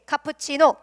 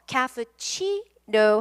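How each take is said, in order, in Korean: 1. 강세는 세 번째 음절에 있지 않아요. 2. 강세는 세 번째 음절에 있어요. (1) "자신 있게 카푸치노 이래요" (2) "강세를 세 번째 음절에 둘 필요가 있어요"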